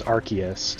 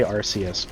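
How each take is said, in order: First: "Arceus" with a hard K, AR-kee-us; hard-K pronunciation. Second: "Arceus" with an S sound, AR-see-us; soft-C pronunciation. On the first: Explaining two Pokemon name readings, "Arceus" said AR-kee-us. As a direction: say "Arceus" with a K sound in the middle. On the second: Admitting the other reading they use, "Arceus" said AR-see-us. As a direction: soften the C of "Arceus" to an S. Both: Shown as a demonstration. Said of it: "Sometimes I say Arceus".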